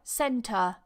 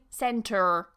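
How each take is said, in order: First: It ends in a schwa with no R sound. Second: It ends with a strong American R sound. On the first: "usually it's pronounced with a schwa" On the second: "I don't say center, okay, because I'm not American"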